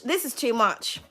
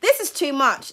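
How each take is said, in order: First: The same words dropped much softer; softer repeat. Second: Said in the usual way. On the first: Real, not acted. To the viewer about the reading, a much softer echo. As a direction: let it fall away, almost to yourself. Overwhelmed by the card spread.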